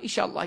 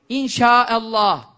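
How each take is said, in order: First: The word is said quickly and loosely. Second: The word is said fully and deliberately. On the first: The speaker calls it wrong. "Bir Türkçe'de inşallah, inşallah, maşallah. Öyle değil yani" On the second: The speaker calls it right. "onu bir doğru okusak bari. Zikir olsun"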